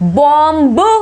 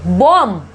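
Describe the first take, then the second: First: A final b sound is pronounced. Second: The final b sound is silent. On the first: The speaker calls it wrong. "बॉम्ब नहीं बोलेंगे" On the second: The speaker calls it right. "इसको क्या बोलेंगे"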